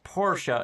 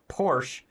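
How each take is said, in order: First: The word is said with two syllables. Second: The word is said with one syllable. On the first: The speaker calls it right. "it's pronounced Porsche ... this one's two" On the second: The speaker calls it wrong. "not Porsche ... even though it looks like one"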